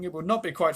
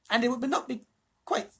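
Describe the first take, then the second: First: Said in the usual way. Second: High, piping mouse. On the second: A narrator's reading. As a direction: say it in the little mouse's lofty voice. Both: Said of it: "sorry, this is me speaking".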